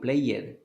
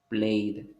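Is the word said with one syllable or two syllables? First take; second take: two syllables; one syllable. First: The ending is a separate extra syllable. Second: The word is one syllable ending in d. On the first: The speaker calls it wrong. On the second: The speaker calls it right.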